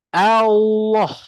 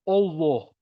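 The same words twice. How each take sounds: First: The first vowel is an open 'ah' sound. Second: The first vowel is a rounded 'oh' sound. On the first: The speaker calls it right. "hak dekat huruf hamzah tu bunyi A tu lah ... Mulut terbuka" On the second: The speaker calls it wrong. "dia sebut oh. ... Salah lah tu"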